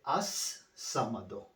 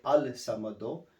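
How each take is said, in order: First: As-Samado with no L, the S doubled; L merged into S. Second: Al-Samado with a clear L before the S; L sounded. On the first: Teacher correcting the article, "As-Samado" with a doubled S. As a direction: slowly hold the double S in "As-Samado". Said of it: "you need to pronounce twice". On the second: Teacher showing what not to say, "Al-Samado" with the L sounded. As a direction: pronounce the L in "Al-Samado". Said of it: "You do not say Al-Samado". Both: Shown as a demonstration.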